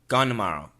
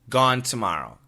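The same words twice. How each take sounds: First: The N of gone replaces the T sound. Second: Tomorrow begins with a clear T sound. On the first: "Gone n n" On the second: "Number one, gone t t t"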